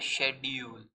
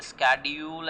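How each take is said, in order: First: Schedule starting with "sh"; schedule with a soft sh, no k; British pronunciation. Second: Schedule starting with "sk"; schedule with a hard k after the s; American pronunciation. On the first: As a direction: say schedule as SHED-yool. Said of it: "is a British pronunciation". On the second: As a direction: say schedule as SKED-yool. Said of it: "an American pronunciation". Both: Shown as a demonstration.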